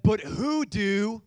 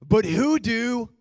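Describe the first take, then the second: First: Rising, drawn-out but who do; but who do said slow and loud; first try. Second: But who do pushed out louder and slower; stronger retry. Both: Shown as a demonstration. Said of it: "let's try that again".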